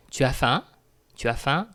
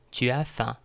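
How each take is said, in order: First: "Tu as faim" rising on "faim"; "Tu as faim" as a rising question; casual spoken question. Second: "Tu as faim" falling at the end; "Tu as faim" closing downward on "faim"; declarative statement. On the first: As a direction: ask "Tu as faim" by lifting the end. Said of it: "if you want to ask someone". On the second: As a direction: state "Tu as faim" as a plain fact. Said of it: "we have another declarative sentence here". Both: Shown as a demonstration.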